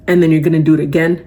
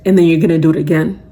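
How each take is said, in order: Both takes have the same delivery.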